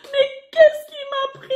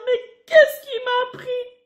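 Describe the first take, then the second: First: Even higher and louder, sobbing; hammed-up sob of remorse; crying regret. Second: Higher, slow, whining; hammed-up remorseful whimper; tearful regret.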